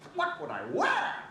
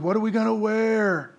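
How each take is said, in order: First: It is said in a Grinch impression. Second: It is said in a normal voice.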